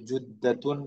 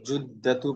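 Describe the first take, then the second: First: The word ends in an added n sound. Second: The word ends in a plain u vowel. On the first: The speaker calls it wrong. "जुद्दतुन नहीं पढ़ेंगे" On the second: The speaker calls it right. "जुद्दतु पढ़ेंगे"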